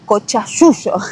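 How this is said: It is said with a Rioplatense accent. "para mí sería cochayuyo, porque nosotros tenemos el acento del Río de la Plata"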